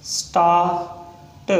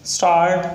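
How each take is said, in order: First: start split into "staa", pause, "t"; sounded out slowly. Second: Said in the usual way. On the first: Shown as a demonstration. Teacher breaking down a shorthand example, sounded out slowly. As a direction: stretch start, detaching the final t.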